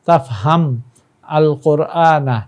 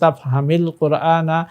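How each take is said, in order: First: The verb ends without a vowel, said separately. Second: The verb links to the next word with 'i'. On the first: "এখানে তাফহাম সাকিন" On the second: "আলিফ লামের সাথে মিলিয়ে পড়লে এখানে জেরের উচ্চারণ আসবে"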